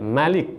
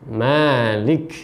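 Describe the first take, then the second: First: The first vowel is kept short. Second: The first vowel is held long. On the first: This follows the reading of certain other imams. "dengan membaca pendek" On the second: This follows the Hafs reading the speaker uses. "mim-nya dipanjangkan"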